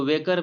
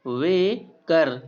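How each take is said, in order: First: Said in the usual way. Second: "वे कर" drawn out in two separate parts; slow syllable-by-syllable "वे कर"; split syllables. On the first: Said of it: "बेकर एक noun है". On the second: Shown as a demonstration. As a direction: say "वे", pause, then "कर", very slowly. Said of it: "यहाँ पर वे जो ए से एंड हो रहा है".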